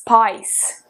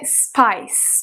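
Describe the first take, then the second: First: The vowel is closed, pulled back in the throat. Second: The vowel is an open, clean 'ai' glide. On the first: "Em britânico, principalmente o britânico bem pesadão... quase que fecha a garganta aqui atrás" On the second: "Esse som de I em americano, ele é um pouco mais puro"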